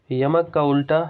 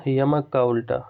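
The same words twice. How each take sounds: The two takes are said the same way.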